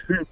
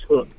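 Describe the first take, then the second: First: "hook" misread from the spelling H U K; newcomer's mispronunciation. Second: Said in the usual way. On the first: Retold or imitated. Brand owner showing how language learners misread it, mispronounced "hook". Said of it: "doesn't know how to pronounce it". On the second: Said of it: "ultimately it's pronounced hook".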